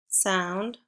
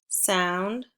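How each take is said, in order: Both takes have the same delivery.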